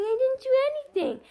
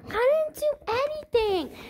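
First: Put-on high child voice, didn't stressed, falling; child insists she didn't do it. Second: Put-on high child voice, I stressed, falling; child insists it wasn't her. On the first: Child denies to mother. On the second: Child repeats denial.

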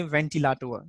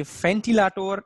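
First: "ventilator" begun with V, ven-tee-la-tor; southern German V-start on "ventilator"; southern German pronunciation. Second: "ventilator" begun with F, fen-tee-la-tor; northern German F-start on "ventilator"; northern German pronunciation. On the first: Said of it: "move to the South Germany". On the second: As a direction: say ventilator with an F, as in Berlin. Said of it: "in the northern Germany". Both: Shown as a demonstration.

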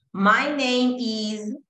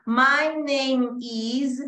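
First: "my name is" drawn out slowly, words run together; linking demo. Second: "My name is" very slow, "name" and "is" fused together; linked words. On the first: Teacher slowly demonstrates linking to the class. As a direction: stretch "my name is" out and join the words. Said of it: "tratando de hacer siempre el linking". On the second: Teacher slowly models linking "name is" for students. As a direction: glide "name" straight into "is". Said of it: "So, I can link them". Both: Shown as a demonstration.

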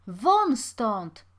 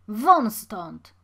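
First: Loud, forceful shouted order; louder shout. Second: Loud order with falling end; shouted dismissal. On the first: Watchman pushing the pauper onto the road, shouting. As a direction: shout to throw him out. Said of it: "krzyknął jeszcze głośniej przybyły". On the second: Watchman chasing off the pauper, loud command. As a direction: drive him away with a shout. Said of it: "krzyknął jeszcze głośniej". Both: A narrator's reading.

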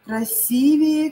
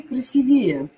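First: Slow Красивее with stressed И; Красивее, second syllable stressed. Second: Красивее with stressed «ве»; красивее, third syllable stressed. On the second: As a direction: hit the Е after В in красивее. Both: Shown as a demonstration. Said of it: "И или Е".

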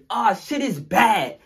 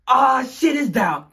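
First: Slow, high, loud drawn call of alarm; corrected line. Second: Slow, high, loud call; drawn out alarmed cry; wrong words. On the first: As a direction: drawl it out in alarm. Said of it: "No, not it's down". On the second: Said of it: "all you hear is". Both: Retold or imitated.

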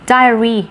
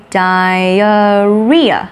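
First: Diary with the weight on the first syllable die; diary, lean on the opening die; stress on die. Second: Diarrhea said very slowly with the weight on ria; stress on ria. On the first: Teacher contrasting diary with diarrhea, stress on die. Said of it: "Diary cho âm rơi vào die". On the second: Teacher contrasting diarrhea with diary, stress on ria. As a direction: draw out diarrhea and land hard on ria. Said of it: "thì cho âm lại rơi vào, vào ria này". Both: Shown as a demonstration.

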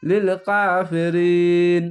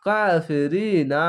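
First: লিল কাফিরিন chanted, long "ee" closing on n; stopping form. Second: কাফিরিনা with the final না fully pronounced; final NA sounded. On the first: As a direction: stop on the n of কাফিরিন, no final "na". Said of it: "এই না উচ্চারণ না হয়ে এরকম হবে". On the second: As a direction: say কাফিরিনা slowly, ending on an open "naa". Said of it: "এই না পড়তে হবে না". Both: Shown as a demonstration.

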